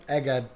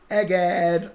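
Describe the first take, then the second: First: Said in the usual way. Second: High, loud cry of EGGHEAD; sudden loud, high-pitched exclamation. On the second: Acted. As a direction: burst out with it, loud and raised. Exclaims, then repeats it normally.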